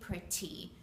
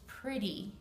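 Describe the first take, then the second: First: The middle consonant is a strong, crisp T. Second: The middle consonant is a soft D sound. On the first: The speaker calls it wrong. "We don't say pretty" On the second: The speaker calls it right. "It's pretty"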